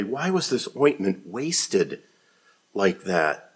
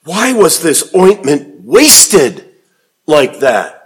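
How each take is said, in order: First: Soft, muttered under the breath; quiet indignant muttering. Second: A touch of scornful complaint, drawn out; slow indignant reading. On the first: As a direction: grumble it softly to yourself. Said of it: "said to themselves indignantly". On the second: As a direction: read it out slow, mildly indignant. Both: A narrator's reading.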